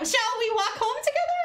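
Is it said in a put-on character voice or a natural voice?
character voice. It is said in a put-on character voice.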